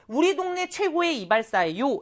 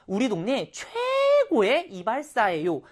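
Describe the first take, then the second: First: It is read flatly, without extra feeling. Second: It is read expressively, bringing out 최고의.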